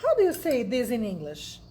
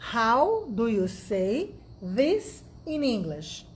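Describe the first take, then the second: First: Said in the usual way. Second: "How do you say this in English?" stretched, each word clear; slow it down for learners to copy; slow and careful. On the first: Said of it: "eu tô com isso aqui na mão". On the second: Shown as a demonstration. Teacher repeats the question slowly for students.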